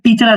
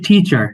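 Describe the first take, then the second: First: The first t is flat and unaspirated. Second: The first t is crisp with a puff of air. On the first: The speaker calls it wrong. "আর টিচার আসবে না" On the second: The speaker calls it right. "আসবে টিচার"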